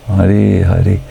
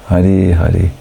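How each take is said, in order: The two takes are said the same way.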